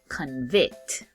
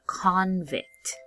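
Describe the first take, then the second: First: The stress is on the last syllable. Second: The stress is on the first syllable. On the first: It means to declare someone guilty. "when it's a verb, we put emphasis on the last part" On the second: It names a person found guilty of a crime. "When it's a noun, we put emphasis on this first part"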